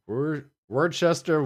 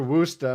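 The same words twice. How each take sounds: First: "Worcester" drawn out slowly, every letter sounded as Wor-ches-ter; slow, over-spelled "Worcester" with all three syllables. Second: "Worcester" said as two syllables, Wuss-ter; clipped local "Worcester", like Wooster; local pronunciation. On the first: Explaining how locals say the town, spelling it out slowly first. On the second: Showing the local way to say the town name. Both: Shown as a demonstration. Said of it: "We pronounce".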